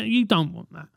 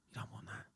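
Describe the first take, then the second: First: Said in the usual way. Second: Muttered repeat. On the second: Real, not acted. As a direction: drop to a near whisper on You don't want that. Repeats the phrase much quieter.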